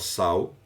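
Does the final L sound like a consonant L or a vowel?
vowel. The final L is softened into a vowel sound. This is how people here say it. "Aqui a gente fala sal"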